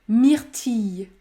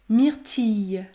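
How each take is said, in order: No difference in how they are said.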